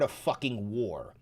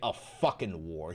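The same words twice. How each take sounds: First: The final G of fucking is clearly pronounced. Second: The final G of fucking is dropped. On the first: The speaker calls it right. "He hits the G at the end of fuck" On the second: The speaker calls it wrong. "He doesn't say a fucking war"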